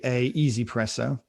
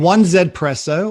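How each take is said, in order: First: It begins with 'a' and runs into 'easy'. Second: It begins with 'one' and a separate letter Z. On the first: "as you're supposed to say" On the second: "I like to call it one Z"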